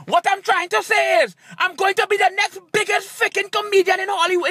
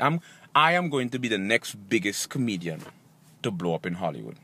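First: High-pitched, forceful outburst; exasperated declaration. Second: Very deep, soft speech voice; self-assured declaration. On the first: Comedian retrying his line after a tongue twister, exasperated. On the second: Comedian predicting his Hollywood rise, deep self-assured voice. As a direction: say it very low, soft and sure. Staged confidence speech, first take. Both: Acted.

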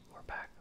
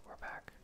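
The two takes are said the same way.

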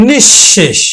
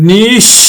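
First: নিঃশেষ as one word, nishshesh; joined double sh. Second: নিঃশেষ split into nish, pause, shesh; doubled sh. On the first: Teacher says we use palatal sh, joined nishshesh for নিঃশেষ. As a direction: run নিঃশেষ together with a doubled sh. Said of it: "তালব্য স উচ্চারণ করি". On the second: Teacher showing the letter said twice, split nish-shesh in নিঃশেষ. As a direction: hold a long sh, break, then repeat it in নিঃশেষ. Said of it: "দুইবার উচ্চারিত হবে". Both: Shown as a demonstration.

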